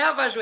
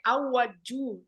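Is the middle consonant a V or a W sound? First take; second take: V; W. First: The middle consonant is a V sound. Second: The middle consonant is a W sound. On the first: The speaker calls it wrong. "não é avaju" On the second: The speaker calls it right. "é auaju"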